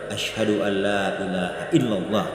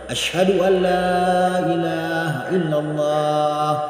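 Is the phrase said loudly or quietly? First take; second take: quiet; loud. First: The phrase is said in a quiet voice. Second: The phrase is said in a loud voice. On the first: It is heard only by oneself and those nearby. "dengan suara yang pelan, diperdengarkan untuk dirinya sendiri dulu" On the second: It is proclaimed to everyone. "dia lantangkan suaranya, dia keraskan suaranya"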